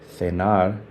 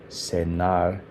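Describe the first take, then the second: No difference in how they are said.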